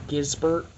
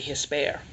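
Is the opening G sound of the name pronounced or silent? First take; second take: pronounced; silent. First: The opening G and final T are pronounced. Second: The opening G and final T are silent. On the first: The speaker calls it wrong. "I mispronounced the name of these. And uh, I thought they were Gisbert" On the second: The speaker calls it right. "the actual G and the T are silent in Spanish. So it's actually Hisper"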